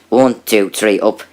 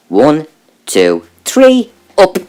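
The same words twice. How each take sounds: First: Said in the usual way. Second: The count rising into a high squeak; mock strained counting that squeaks high; jumping to a high squeak. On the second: Overheard counting through wall.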